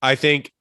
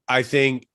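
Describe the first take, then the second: No difference in how they are said.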